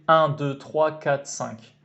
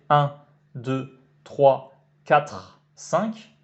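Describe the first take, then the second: First: The numbers are counted quickly and run together. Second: The numbers are counted slowly and fully articulated. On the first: "je dis bien rapidement" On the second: "là on a le temps véritablement d'articuler complètement le nombre"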